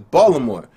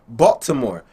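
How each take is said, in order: First: It is said in a local Baltimore accent. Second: It is said in a non-local accent. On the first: This is how the locals say the name. "But they say it is Baltimore" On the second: This is how an outsider says the name. "but I'ma say it Baltimore"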